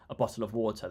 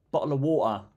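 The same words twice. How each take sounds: First: "water" with an R at the end, "wɔtə˞"; American pronunciation. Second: "water" said British, "wɔtə", no R; clipped British bottle of water; British pronunciation. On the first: Retold or imitated. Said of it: "they say". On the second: Shown as a demonstration. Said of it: "you saying British".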